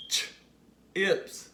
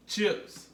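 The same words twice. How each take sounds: First: "Ch-ips" split, a long pause after "ch"; sounded-out word. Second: Said in the usual way. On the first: Shown as a demonstration. Teacher leads the class to say it along, "Ch-ips" split in two. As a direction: isolate the "ch", then release "ips". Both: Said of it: "Say it with me".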